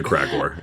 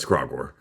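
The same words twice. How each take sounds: First: "Kragor" with a short a as in cat; mispronounced name. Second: "Kragor" with an open ah, KRAH-gor; corrected pronunciation. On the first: Retold or imitated. Correcting a friend by echoing the mistake, mispronounced name. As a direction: say "Kragor" as KRAG-or. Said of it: "It's Kragor". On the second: Shown as a demonstration. Correcting how a friend says the name, corrected pronunciation. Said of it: "No, you said Kragor".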